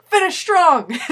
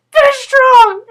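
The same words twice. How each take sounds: First: Teammate's pep call. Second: Squeaky, much higher and louder, choking on laughter; a rallying cry that cracks into giggles; laughing pep call. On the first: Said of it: "Jason's like". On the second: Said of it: "So I was just like". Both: Retold or imitated.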